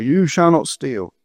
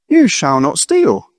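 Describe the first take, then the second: First: It sounds like a stern, scolding warning. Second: It sounds like a warm, reassuring promise.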